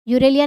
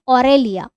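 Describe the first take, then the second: First: The word begins with a 'yoo' sound. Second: The word begins with an 'aw' sound. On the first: The speaker calls it wrong. "यूरेलिया नहीं" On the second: The speaker calls it right. "ऑरेलिया बोलते हैं इसको"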